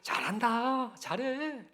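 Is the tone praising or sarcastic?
praising. It is said in a warm, praising tone. The listener is being genuinely complimented. "칭찬으로 느껴지십니까?"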